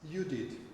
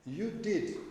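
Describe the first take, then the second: First: It is said as a plain statement. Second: It is said as an exclamation. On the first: It states a fact. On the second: It expresses surprise or strong feeling.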